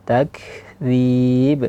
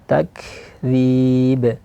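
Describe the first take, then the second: The two takes are said the same way.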